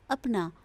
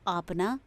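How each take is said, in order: First: Said in the usual way. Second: आपना with a long aa in the first syllable; teacher reads आपना, opening with a long aa; wrong spelling read. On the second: Shown as a demonstration. Teacher showing pupils the wrong form: आपना with a long first aa. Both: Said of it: "आ की मात्रा नहीं होनी चाहिए".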